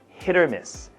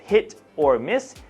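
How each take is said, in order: First: The words are said quickly and joined together. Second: The words are said separately, without linking. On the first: "when we say this very quickly, these tend to join together" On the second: "instead of"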